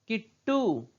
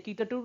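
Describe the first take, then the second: First: The middle consonant is doubled with no vowel. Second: The middle consonant is followed by a vowel. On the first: The speaker calls it right. "ये आधा इसका उच्चारण हम कर रहे हैं" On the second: The speaker calls it wrong. "कीटटू नहीं पढ़ते"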